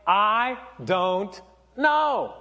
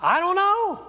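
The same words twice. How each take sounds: First: Slow, spaced-out words with pauses; serious, drawn-out. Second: High-pitched, quick acted 'I don't know'; acted shrug. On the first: Acted. Pastor repeating the emoji's answer in earnest, slow and deliberate. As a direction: let each word land separately, seriously. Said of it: "You know, like, seriously, like". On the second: Pastor voicing a rogue emoji reply, high-pitched shrug. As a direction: toss it up high like a clueless shrug. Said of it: "this is what the emoji was. And it's like".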